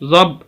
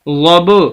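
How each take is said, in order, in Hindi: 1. अंतिम b बिना किसी झटके के चुपचाप रुक जाता है। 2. अंतिम b एक गूँजते झटके के साथ छोड़ा जाता है। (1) "बा की आवाज को ना हिलाएं तो हम पढ़ेंगे ज़ब" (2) "ये कलकला कहा जाता है इसको"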